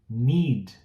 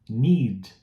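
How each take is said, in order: The two takes are said the same way.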